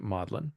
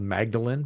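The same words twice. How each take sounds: First: The name is said the local, unwritten way. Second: The name is said as it is written. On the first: "but they pronounce it Magdalen" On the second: "it's spelled Magdalen"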